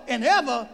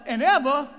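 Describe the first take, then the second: The two takes are said the same way.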